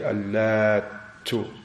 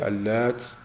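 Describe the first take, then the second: First: The final t sound is doubled and held. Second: The final t sound is short and light. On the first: "with emphasis, like with the shadda on it" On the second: "you can read it with ta light"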